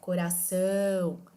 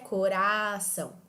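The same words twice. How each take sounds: First: The last syllable is drawn out and stressed. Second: The middle syllable is drawn out and stressed. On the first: The speaker calls it right. "eu consigo manter a pronúncia da palavra mesmo arrastando a letra A" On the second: The speaker calls it wrong. "A pronúncia da palavra também fica alterada"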